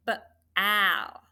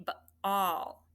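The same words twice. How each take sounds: First: Ball misread with short a, b split off; wrong short-a reading. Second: Ball split slowly into b and all; correct aw reading. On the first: Teacher showing students how ball is not read, short a. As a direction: say b, then al with short a. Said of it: "we don't read it". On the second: Teacher showing how we say ball, aw vowel. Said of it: "We say b-all". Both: Shown as a demonstration.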